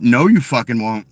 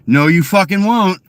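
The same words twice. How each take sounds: First: Said in the usual way. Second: "won't" hit louder and higher; louder, higher insistence on "fucking won't"; emphatic repeat. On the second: Shown as a demonstration. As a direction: slam the word "won't" down hard. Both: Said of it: "repeated more forcefully".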